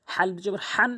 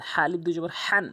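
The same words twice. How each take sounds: The two takes are said the same way.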